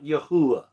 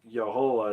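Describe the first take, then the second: First: The name has an 'oo' sound in the middle. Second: The name has no 'oo' sound in the middle. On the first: The speaker calls it wrong. "there's no U sound in that name" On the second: The speaker calls it right. "I think Yahoah is actually the closest"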